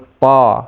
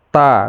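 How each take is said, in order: First: The syllable is pronounced thick and heavy. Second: The syllable is pronounced thin and light. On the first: The speaker calls it wrong. "Jangan to. Nah, jangan to, itu menjadi tebal dia" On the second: The speaker calls it right. "biasa aja"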